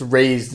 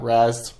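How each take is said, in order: First: The word sounds like 'raised', with a long vowel. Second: The word sounds like 'razzed', with a short vowel. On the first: The speaker calls it right. "supposed to be pronounced raised" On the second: The speaker calls it wrong. "not razzed"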